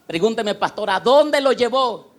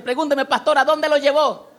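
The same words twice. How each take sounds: First: Said in the usual way. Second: High, loud, insistent question; eager to know. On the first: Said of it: "Pregúnteme como quisiera". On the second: Shown as a demonstration. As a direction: ask as if you really need the answer. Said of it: "como quisiera, si quiere saber". (pregunta con ganas de saber)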